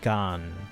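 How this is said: The vowel is an open 'ah' sound. "which is apparently a very Chicago thing"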